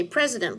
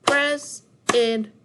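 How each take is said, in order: First: Said in the usual way. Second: "President" split into three loud beats, pauses between; syllable by syllable. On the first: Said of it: "see how many syllables". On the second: Shown as a demonstration. Teacher counting syllables with class, "President" broken into syllables. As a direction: say "President" slowly, one separate syllable at a time. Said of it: "how many syllables we have".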